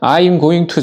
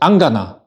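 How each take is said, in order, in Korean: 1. 각 단어를 하나하나 또박또박 다 발음합니다. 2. 단어들이 하나의 짧은 축약형으로 뭉개져 발음됩니다. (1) "보통은 I'm going to가 우리가 하는 표현이지만" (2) "그래서 안 가나 라고 표현해 줄 수 있고"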